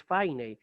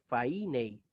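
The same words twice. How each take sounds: First: Fainei with ai as one diphthong, stress on the ai; right reading fainei. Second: Fainei read with stress on the iota, fai-NEI split wrong. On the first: Teacher giving students the correct reading of fainei. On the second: Teacher demonstrating a wrong Greek reading of fainei. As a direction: mispronounce fainei as the text looks. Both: Shown as a demonstration. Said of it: "No es fainei, es fainei".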